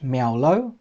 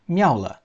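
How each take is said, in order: First: The name ends with an 'oh' vowel. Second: The name ends with an 'ah' vowel. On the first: The speaker calls it wrong. "It shouldn't be pronounced Miaolo" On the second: The speaker calls it right. "it should be pronounced Miaola"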